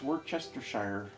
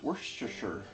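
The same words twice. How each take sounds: First: Every written syllable is pronounced in full. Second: Several syllables are dropped in shortened form. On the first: The speaker calls it wrong. "If you pronounce it the way it's written" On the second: The speaker calls it right. "apparently that's not how you say it"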